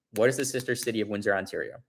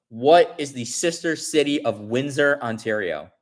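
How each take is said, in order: First: Said in the usual way. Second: Announcing the final question to the chat; quiz host read. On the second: Shown as a demonstration. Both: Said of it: "the fifth question ends up being".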